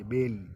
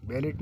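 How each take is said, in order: First: बेल ending without any t; silent t. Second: बेलेट with the final t sounded; wrong pronunciation. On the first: Teacher giving students the correct reading, t silent. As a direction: say बेल with the final t left off. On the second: Teacher warning students off the spelt reading, final t sounded. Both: Shown as a demonstration. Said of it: "बेलेट नहीं पढ़ेंगे".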